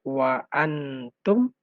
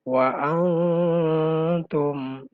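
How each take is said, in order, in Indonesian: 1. Huruf n diucapkan dengan jelas. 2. Huruf n tersembunyi dalam dengung hidung. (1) "Aslinya harokatnya adalah" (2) "ikhfa atau didengungkan"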